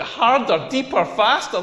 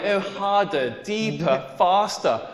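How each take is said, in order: First: Mock-appalled repeat, pitched up; incredulous echo. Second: Lightly imitated bedroom urging; understated mock-sultry commands, spaced out; dirty talk. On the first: Comedian reacting to demands in bed, incredulous. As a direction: throw her words back in disbelief. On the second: Woman urging on her lover in bed, dirty talk. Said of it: "she started talking dirty back to me".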